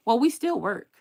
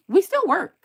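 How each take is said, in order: First: Said in the usual way. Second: Loud retort. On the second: Real, not acted. Repeating a retort to a viewer.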